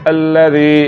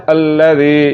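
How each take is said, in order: Both takes have the same delivery.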